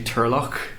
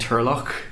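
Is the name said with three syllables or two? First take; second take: two; two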